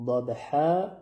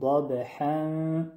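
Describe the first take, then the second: First: ضاد ح with final ح stopped short; ضاد ح ending on a clean ح; pausal form ضاد ح. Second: ضاد حا drawn out very slowly into the next word; ضاد حا with long final alef; connected form ضاد حا. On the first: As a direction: say ضاد ح as at a full stop. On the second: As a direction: stretch ضاد حا as if joined onward. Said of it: "در حالت وصل". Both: Shown as a demonstration.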